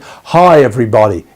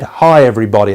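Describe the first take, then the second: First: It sounds warm, bright and welcoming. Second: It sounds flat, stern and annoyed. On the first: Everyone is welcome here. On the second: Be quiet, I've had enough.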